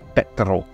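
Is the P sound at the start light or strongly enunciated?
strong. The P at the start is strongly enunciated. This is how someone from Shetland says it. "he really enunciates the P"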